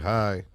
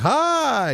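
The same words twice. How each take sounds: First: The greeting is said flatly without enthusiasm. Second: The greeting is said with lively enthusiasm. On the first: The speaker calls it wrong. "You're like" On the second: The speaker calls it right. "Why don't you have the same enthusiasm as me? I was like"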